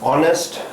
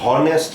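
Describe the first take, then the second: First: The word begins with a vowel sound, no h. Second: The word begins with an audible h sound. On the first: The speaker calls it right. "ऑनेस्ट हम बोलेंगे उसको" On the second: The speaker calls it wrong. "हॉनेस्ट नहीं बोलेंगे"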